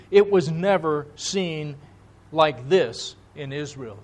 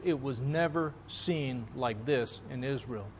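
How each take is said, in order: First: Said in the usual way. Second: The same line again, much softer and low; hushed repeat. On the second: Retold or imitated. Preacher echoing the crowd's words back to the congregation, hushed. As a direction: let it sink in, almost under the breath.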